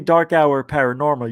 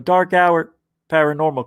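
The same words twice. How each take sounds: First: The name is run together without a pause. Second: The name has a clear pause inside it. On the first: The speaker calls it wrong. "you don't say dark hour paranormal" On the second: The speaker calls it right. "You go dark hour paranormal because there's a space"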